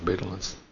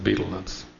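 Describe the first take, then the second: First: Betel nuts is said with an American pronunciation. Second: Betel nuts is said with a British pronunciation. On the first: "In the United States, they pronounce them as" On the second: "The British pronounce it as"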